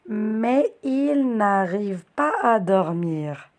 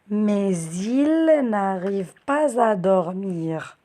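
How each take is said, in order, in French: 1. Les mots sont dits sans sons de liaison. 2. Le son Z lie mais il et pas à.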